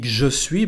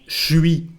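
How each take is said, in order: First: Both words are said separately and in full. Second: The two words merge into one shortened syllable. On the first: "We don't say when we speak je suis" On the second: "but something like"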